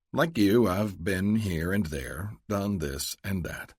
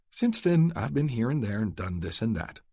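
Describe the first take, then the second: First: Luke, evasive. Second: A higher, lightly voiced lady, brushing past; Adele, breezy. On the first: Acted. Luke echoes Adele to dodge her question, slow and evasive. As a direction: drawl it out, giving nothing away. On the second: Adele brushes off her past to Luke, breezy.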